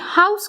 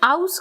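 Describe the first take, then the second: First: The word starts with a clear h sound. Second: The word starts without any h sound. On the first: This is how London speakers say it. "London में हाउस कहते हैं" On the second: This is how Yorkshire speakers say it. "Yorkshire में उसे आउस कहते हैं"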